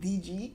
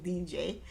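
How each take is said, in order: First: The second letter is said as 'gee'. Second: The second letter is said as 'jay'. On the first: This is how most people say the brand. The speaker calls it wrong. "Everybody pronounces it D G" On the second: This is the brand's actual name. The speaker calls it right. "but it's D J"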